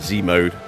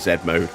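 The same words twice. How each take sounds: First: The letter is said as 'zee'. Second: The letter is said as 'zed'.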